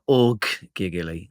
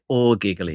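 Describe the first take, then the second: First: A doubled g sound follows 'or'. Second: A single g sound follows 'or'. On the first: The speaker calls it wrong. "not org giggly" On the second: The speaker calls it right. "You're gonna have to pronounce it or giggly"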